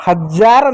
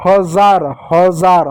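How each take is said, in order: First: हजार with a hard j, like English jar; wrong j sound. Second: हजार with a buzzing z, like zoo; correct z sound. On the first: (हजार को ज की तरह कहें, ग़लत उच्चारण) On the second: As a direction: say हजार with a clear z, not j. (हजार में ज़ की आवाज़, सही उच्चारण) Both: Shown as a demonstration. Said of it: "हजार नहीं होता".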